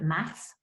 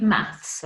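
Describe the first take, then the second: First: "maths" without the final s; American word MATH. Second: Said in the usual way. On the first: Shown as a demonstration. Teacher giving pupils the American term, "maths" said as "math". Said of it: "as the Americans call it".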